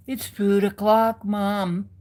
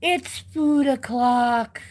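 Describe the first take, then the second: First: Lighter cat voice. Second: Cat voice slow and drawn out. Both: Retold or imitated.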